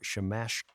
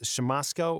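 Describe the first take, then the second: First: The middle consonant is an sh sound. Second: The middle consonant is a plain s sound. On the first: The speaker calls it right. "I believe it is Shamashko" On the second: The speaker calls it wrong. "is it pronounced Shamosko or Shamashko?"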